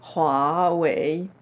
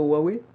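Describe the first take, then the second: First: The name is said the original, non-French way. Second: The name is said the usual French way. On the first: This is the brand's real pronunciation. "ça c'est la vraie prononciation" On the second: This is how people in France usually say it. "en France, on dit plutôt Huawei"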